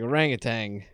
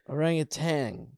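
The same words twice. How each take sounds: First: The word ends with an ng sound. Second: The word ends with a plain n sound. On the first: The speaker calls it wrong. "I always put a G at the end" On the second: The speaker calls it right. "Orangutan, right? Tan?"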